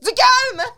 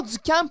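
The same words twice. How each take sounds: First: Sudden high, loud shout; acted outburst. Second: Said in the usual way. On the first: Boss demanding calm for the tests, exploding in shouts. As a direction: yell it out in mock exasperation.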